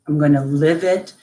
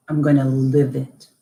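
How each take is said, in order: First: "it" lifted at the end; stress on it. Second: Gonna pressed lower and firm; stress on gonna. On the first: Mother repeating her vow, rising on "it". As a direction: end "I'm gonna live it" on a rising "it". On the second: Mother vowing to daughter, "gonna" weighted. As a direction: lean on "gonna" in "I'm gonna live it". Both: Real, not acted.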